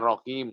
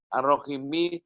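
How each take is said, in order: First: The word ends on the bare consonant. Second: The word ends with a short final vowel. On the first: The reader stops on this word. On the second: The reading continues past this word.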